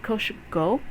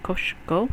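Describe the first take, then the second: The two takes are said the same way.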